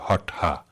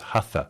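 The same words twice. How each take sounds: First: The t is retroflex and followed by breathy h. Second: The t is plain, without retroflex or aspiration. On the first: This is how the word is said in Sanskrit. "it's a retroflex T. You turn your tongue back against the roof of your mouth to say the ta, and then it's aspirated" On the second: This is how the word is said in modern globalized yoga. "people who don't know Sanskrit or Hindi, when reading it, are going to pronounce it as hatha"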